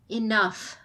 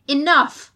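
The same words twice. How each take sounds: First: "Enough," said gently, falling at the end; calm the room after the outburst; more gently. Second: "enough!" shouted high and loud; ringing commanding shout; clarion-loud shout. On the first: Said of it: "she said more gently". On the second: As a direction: bark it to silence the room. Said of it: "Her voice was as loud as a clarion call". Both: A narrator's reading.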